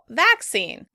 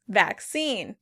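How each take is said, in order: First: The stress is on the first syllable. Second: The stress is on the second syllable. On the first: "The British stress the first syllable" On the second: "Americans say vaccine"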